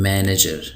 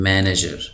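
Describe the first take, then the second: The two takes are said the same way.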